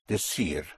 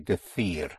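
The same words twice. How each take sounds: First: The c is said as an s sound. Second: The c is said as a th sound.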